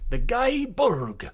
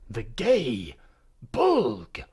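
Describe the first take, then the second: First: The first word rhymes with 'sky'. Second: The first word rhymes with 'day'.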